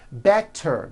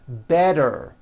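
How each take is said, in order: First: The middle consonant is a clear T. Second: The middle consonant is a voiced D.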